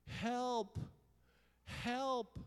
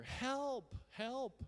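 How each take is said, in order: First: High, loud cry for help; big re-enacted yell for help. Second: High-pitched, urgent re-enacted yell; loud acted cries for help; louder yell for help. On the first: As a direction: yell out as if lost on a mountain. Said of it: "I started yelling". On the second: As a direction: yell higher, desperate to be found. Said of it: "So I yelled louder".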